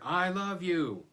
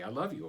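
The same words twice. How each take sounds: First: It is said noticeably louder. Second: It is said at normal, quieter volume.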